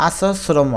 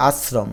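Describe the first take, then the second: First: আশ্রম as "a-so-sromo", open syllables; without hasanta. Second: আশ্রম as "as-srom", ending on a closed m; with hasanta. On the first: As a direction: add an o after the s and the m of আশ্রম. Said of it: "হসন্ত না দিলে উচ্চারণ হবে". (আশ্রম, হসন্ত ছাড়া আসোস্রমো) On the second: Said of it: "হসন্ত দিলে হবে". (আশ্রম, শেষে হসন্ত দিয়ে) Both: Shown as a demonstration.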